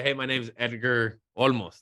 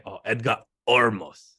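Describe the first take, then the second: First: Said in the usual way. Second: Olmos said as Ormos, the L turned into an R; Japanese mispronunciation. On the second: Retold or imitated. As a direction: imitate teammates saying Olmos as Ormos. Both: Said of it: "'Cause they can't say the L".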